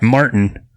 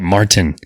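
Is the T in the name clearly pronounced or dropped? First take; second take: dropped; pronounced. First: The T sound in the middle is dropped. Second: The T sound in the middle is pronounced. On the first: The speaker calls it wrong. "not Martin" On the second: The speaker calls it right. "he likes to pronounce it? the T"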